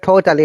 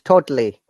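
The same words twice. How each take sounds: First: The vowel before the L is full. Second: The vowel before the L is a schwa. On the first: The speaker calls it wrong. "it's not totally" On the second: The speaker calls it right. "there is a schwa sound. The A"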